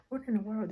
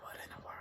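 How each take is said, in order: First: Said in the usual way. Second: Very soft, hushed disbelief; barely audible, retold shock; stunned whisper. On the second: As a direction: whisper it under your breath in alarm. Retold shock when baby made no noise.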